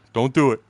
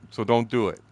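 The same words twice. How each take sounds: First: Firm warning. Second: Said in the usual way. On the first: Retold or imitated. Wife's warning repeated.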